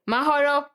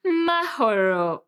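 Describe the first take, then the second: First: Short, unromantic Mahoro, higher-pitched; old man clearing throat. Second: Slow, drawn-out, crooned Mahoro; lovey-dovey. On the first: Retold or imitated. Crush says Mahoro like old man clearing throat. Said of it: "old man that was trying to clear his throat". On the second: Shown as a demonstration. How she wished her crush said Mahoro, lovey-dovey. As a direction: croon MAHORO with long, melting vowels. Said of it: "in a very lovey-dovey way".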